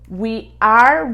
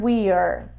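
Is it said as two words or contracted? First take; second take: two words; contracted. First: Said as two separate full words. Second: Said contracted into one short syllable.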